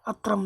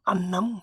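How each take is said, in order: First: The middle consonants are pronounced as tr. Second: The middle consonant is a long double n. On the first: The speaker calls it wrong. "अत्रम जो बोल रहे हैं वो गलत बोल रहे हैं" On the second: The speaker calls it right. "ये डबल न है"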